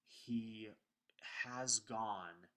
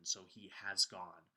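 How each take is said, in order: First: Breathy hushed he, then a lifted has gone; results emphasis. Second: Slow, deliberate he has gone with has stressed; past event emphasis. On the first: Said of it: "the author is emphasizing the results". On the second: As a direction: draw out has, weighting the past act of has gone. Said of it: "we put the emphasis on the past event". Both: Shown as a demonstration.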